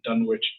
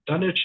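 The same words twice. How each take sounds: First: It is said the way the American town is. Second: It is said the way the English place is. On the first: It names the American town. "is the American town" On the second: It names the town in England. "the one that's in England"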